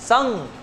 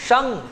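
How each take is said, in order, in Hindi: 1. इस अक्षर का अंत ng की ध्वनि से होता है। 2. इस अक्षर का अंत ng की ध्वनि से होता है।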